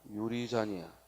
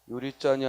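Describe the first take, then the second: First: The consonant starting 잔 is plain. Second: The consonant starting 잔 is tensed. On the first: The speaker calls it right. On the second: The speaker calls it wrong.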